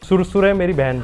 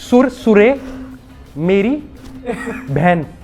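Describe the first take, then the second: First: It is said at normal speed. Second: It is said slowly, word by word.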